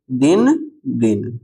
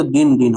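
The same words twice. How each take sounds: First: दिन दिन spaced out slowly; slow word-by-word दिन दिन for learners; slow dictation. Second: Said in the usual way. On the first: Shown as a demonstration. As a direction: say each दिन separately, drawn out. Repeats answer slowly for learners.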